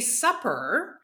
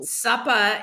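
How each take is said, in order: First: It is said in a standard accent with r. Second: It is said in a Boston accent without r. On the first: "to say supper" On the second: "Suppa is the term that we use in Boston"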